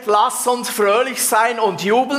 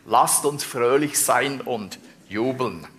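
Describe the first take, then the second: First: It is said loudly and boisterously. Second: It is said softly and sweetly. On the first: "streckt er dich neben dem Bett" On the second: "siehst ihr das ganz lieb"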